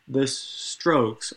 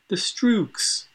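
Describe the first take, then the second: First: The name is said in a plain accent. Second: The name is said in a Swedish-style accent.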